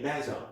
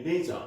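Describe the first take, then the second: First: LEISURE with a short e, as in "lezher"; first vowel of LEISURE short, like "led"; British pronunciation. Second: LEISURE with a long ee, as in "leezher"; long ee at the start of LEISURE; American pronunciation. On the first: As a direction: say LEISURE the British way, rhyming with pleasure. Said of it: "in British English". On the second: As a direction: say LEISURE the American way, first syllable like "lee". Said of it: "in the U S A pronunciation". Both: Shown as a demonstration.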